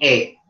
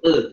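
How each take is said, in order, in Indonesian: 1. Vokal condong kuat ke bunyi e. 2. Vokal condong hanya sedikit ke bunyi e. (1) "imalah kubro. Yaitu bunyi e" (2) "Kalau imalah sugro itu e"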